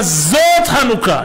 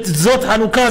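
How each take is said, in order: First: זאת drawn out slowly; stress on זאת. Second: Said in the usual way. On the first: Shown as a demonstration. Rabbi explaining the holiday's name, stress on a lengthened זאת. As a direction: lean long and hard on זאת. Term repeated with drawn-out emphasis.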